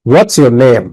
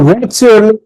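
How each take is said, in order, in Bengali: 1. শেষে কণ্ঠ নামে। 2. শেষে কণ্ঠ ওঠে। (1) "তো তুমি কি বলবে" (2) "তাহলে উপরে উঠে গেল।"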